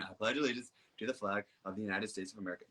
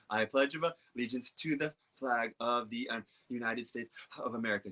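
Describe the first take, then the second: First: It flows smoothly without breaks for breath. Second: It is broken up by pauses for breath. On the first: The speaker has enough oxygen to talk easily. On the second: The speaker is not getting enough oxygen.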